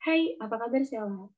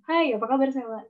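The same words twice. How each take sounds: First: The voice is pitched low. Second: The voice is pitched in the middle.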